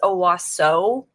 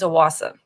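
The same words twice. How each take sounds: First: The word ends with an 'oh' vowel. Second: The word ends with an 'ah' vowel. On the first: It is read the way it is spelled. "it looks like it's Owasso" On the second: It is said the way locals say it. "like an A instead of an O at the end"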